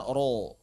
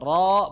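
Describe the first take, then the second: First: "ro" rounded into a long falling O; wrong rounded ro. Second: Loud "Ro" with an open, heavy vowel; correct open ro. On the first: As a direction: show the mistake, "ro" with a full O. ("ro" keliru, membulat seperti o) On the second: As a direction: open up "Ro" without rounding to O. ("Ro" tebal, dibuka) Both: Shown as a demonstration. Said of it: "bukan ro".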